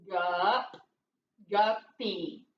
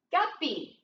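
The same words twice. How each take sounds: First: "Gup, guppy" low, broken into gup... pee; sounded out. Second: Said in the usual way. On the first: Shown as a demonstration. Teacher decoding for pupils, "guppy" syllable by syllable. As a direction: split "guppy" into two separate syllables, pitched down. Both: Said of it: "What's it saying?".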